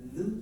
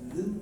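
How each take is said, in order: The two takes are said the same way.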